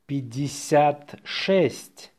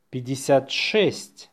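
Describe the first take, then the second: First: Slow dictation, words set apart. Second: Natural-speed dictation; faster. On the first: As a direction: say it slowly for learners. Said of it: "say it slowly". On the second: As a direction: run the number together briskly. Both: Shown as a demonstration.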